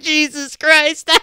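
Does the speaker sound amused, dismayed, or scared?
amused. It is said while laughing, in an amused tone. Something funny just happened. "If you're laughing, you're like"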